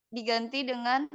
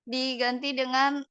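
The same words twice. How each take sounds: The two takes are said the same way.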